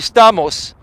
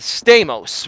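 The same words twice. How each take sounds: First: The name is said with Greek pronunciation. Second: The name is said with American pronunciation. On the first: This is the original form of the name. The speaker calls it right. "It's actually Stamos" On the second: This is the adapted form most people use. The speaker calls it wrong. "not Stamos"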